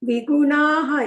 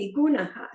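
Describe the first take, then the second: First: The ending is drawn out with an extra vowel. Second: The ending is short with a brief breathy release. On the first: The speaker calls it wrong. "ಸ್ವಲ್ಪ ದೀರ್ಘ ಮಾಡಿದ್ವಿ ... ಇಲ್ಲ" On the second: The speaker calls it right. "ವಿಗುಣಃ ಅಷ್ಟೇ"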